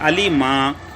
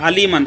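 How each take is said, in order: First: The word ends with a long a vowel. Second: The word ends with an n sound. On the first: The reader stops at the end of the verse. "एक जबर पढ़ेंगे" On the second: The reading continues without a stop. "दो जबर अलीमन"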